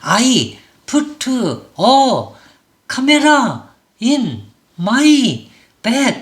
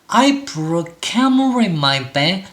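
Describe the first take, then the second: First: Every vowel is pronounced fully and with force. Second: Only three vowels are strong; others are reduced. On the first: The speaker calls it wrong. "다 힘을 주게 되면은" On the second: The speaker calls it right. "세 개의 모음만 이렇게 소리를 실제로는 세게"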